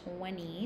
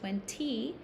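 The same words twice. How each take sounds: First: The T sound in the middle is silent. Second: The T sound in the middle is pronounced. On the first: "we do say twenty without the T sound" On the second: "Notice I don't say twenty. You can. That's okay"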